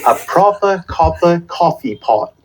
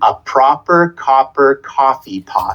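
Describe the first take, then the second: First: It is said in a British accent. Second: It is said in a Canadian/American accent.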